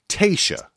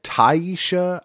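First: Tayshia said as TAY-shuh, first syllable like tay; careful TAY-shuh, practiced; correct name Tayshia. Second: Taisha said as TIE-shuh, first syllable like tie; recalling the mistake, TIE-shuh; old wrong Taisha. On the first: Shown as a demonstration. Host proudly getting the contestant's name right, TAY-shuh. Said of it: "Tayshia, you got it right". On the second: Retold or imitated. Host admitting she mispronounced the name, TIE-shuh. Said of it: "I said Taisha".

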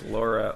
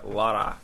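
First: Said in the usual way. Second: LARA with a rolled R; Lara, tapped R, mock Scottish; imitated Scottish pronunciation. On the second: Shown as a demonstration. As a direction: roll the R in Lara as a Scot might. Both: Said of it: "Scottish people pronounce Laura Lara".

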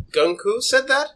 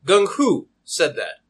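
First: High, rising disbelief; incredulous question. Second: Slow, doubtful repeat with a falling end; suspicious. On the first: Customer doubting the shopkeeper's claim, high and incredulous. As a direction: question it with your pitch climbing. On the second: Customer still suspicious of the deal, slow and doubting. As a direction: draw it out, weighing each word. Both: Acted.

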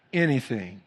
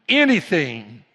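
First: Said in the usual way. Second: ANYTHING burst out loud, falling in pitch; emphatic cry. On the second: Real, not acted. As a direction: hit "anything" hard and loud. Preacher repeats the word for emphasis.

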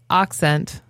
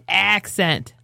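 First: "accent" slowly, as "OCK-sent"; corrected "accent". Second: Put-on "accent" drawn out slowly with flat "a"; imitated Midwestern "accent". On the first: Shown as a demonstration. Answering how to say it, slow "accent" as "ock-sent". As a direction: open the first vowel of "accent" to "ah". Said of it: "a correct way to say accent?". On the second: Friend mocking the speaker, slow flattened "accent". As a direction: stretch "accent" as "AAK-sent". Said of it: "He goes".

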